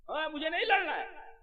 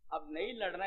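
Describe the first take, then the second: First: Higher pleading refusal as Arjun; a hint of a reluctant warrior saying no; lightly voiced Arjun refusing; voicing Arjun. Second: Said in the usual way.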